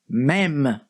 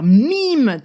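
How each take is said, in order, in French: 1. La voyelle se prononce comme le e de bed. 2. La voyelle se prononce comme le ee de see. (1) "En français, ça se prononce même" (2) "ça a du sens de dire mime dans le cadre d'une phrase ou d'une expression en anglais"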